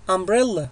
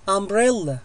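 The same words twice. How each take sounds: The two takes are said the same way.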